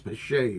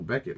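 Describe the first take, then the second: First: The middle consonant is a soft 'sh' sound. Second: The middle consonant is a hard 'k' sound. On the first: The speaker calls it right. "It's Bechet, it's not Beckett" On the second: The speaker calls it wrong. "I didn't even pronounce it correctly"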